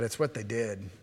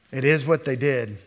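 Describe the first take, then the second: First: Said in the usual way. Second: Firm emphasis on "is"; stress on IS. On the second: Shown as a demonstration. Preacher insisting on what the priests did, stressing "is".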